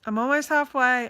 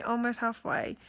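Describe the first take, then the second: First: Rallying herself with a louder burst; louder hopeful push. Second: Said in the usual way. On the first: Real, not acted. To viewers, rallying herself about chemo progress, louder. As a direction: say almost halfway louder, pushing up the hope.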